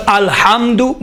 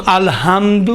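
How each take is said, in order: First: الحمد with a heavy throat ha, said slowly. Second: الحمد with a light breathy ha, said slowly. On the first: Teacher showing the big ha in الحمد, slow. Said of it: "بڑا ہا ہے". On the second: Teacher showing the small ha for contrast, slow. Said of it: "یہ چھوٹا ہا ہے". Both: Shown as a demonstration.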